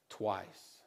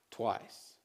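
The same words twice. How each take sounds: First: "twice" said very low and soft; solemn low ending; low quiet drop. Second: "Twice" whispered, much lower and softer; hushed emphatic echo; whispered repeat. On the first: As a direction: let "twice" sink. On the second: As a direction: breathe the word "Twice". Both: Shown as a demonstration. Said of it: "repeats twice".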